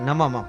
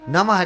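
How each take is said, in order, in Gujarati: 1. શબ્દનો અંત m અવાજથી થાય છે. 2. શબ્દનો અંત h અવાજથી થાય છે. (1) "નમમ નથી જોતું" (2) "ભૂલથી નમઃ બોલો"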